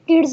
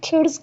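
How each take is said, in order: First: The k is said without a puff of air. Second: The k is said with a puff of air. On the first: The speaker calls it wrong. "किड्स नहीं कहेंगे" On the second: The speaker calls it right. "खिड्स कहेंगे. हा को include किया"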